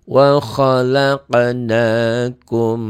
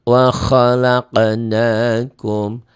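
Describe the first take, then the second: Both takes have the same delivery.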